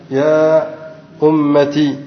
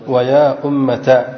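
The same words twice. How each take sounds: First: "أمتي" ending in -ti; ta with kasra. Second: Slow "أمة" ending in -ta; ta with fatha. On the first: Teacher showing the seventh form, "أمتي" said ummati. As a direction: finish "أمتي" on an i vowel after the t. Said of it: "مكسورة، فنقول". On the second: Teacher showing the second form, "أمة" said slowly as ummata. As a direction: pronounce the t of "أمة", then open a. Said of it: "بفتح التاء". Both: Shown as a demonstration.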